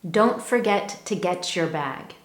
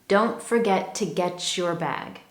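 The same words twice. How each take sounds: Both takes have the same delivery.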